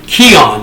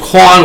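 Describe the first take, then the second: First: The name sounds like 'Keon'. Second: The name sounds like 'Quan'. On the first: The speaker calls it right. "It's actually Keon" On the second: The speaker calls it wrong. "I mispronounced his name"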